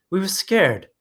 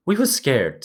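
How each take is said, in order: First: High, pleading insistence; insistent. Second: High and eager; excited. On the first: Piggy insisting to Ralph, high and pleading. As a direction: push the fear out high. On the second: Piggy excitedly repeating their fear to Ralph. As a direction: rush it out, excited. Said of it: "said Piggy excitedly". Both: A narrator's reading.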